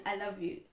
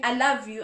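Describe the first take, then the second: First: Said in the usual way. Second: "love" stressed, louder and fuller; meaningful I love you. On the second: Shown as a demonstration. Spouse showing how real love sounds, stressing "love". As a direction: lean into "love" so it lands as heartfelt. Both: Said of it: "there's a difference between".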